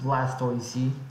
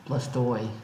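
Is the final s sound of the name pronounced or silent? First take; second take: pronounced; silent. First: The name ends with an audible s sound. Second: The name ends without any s sound.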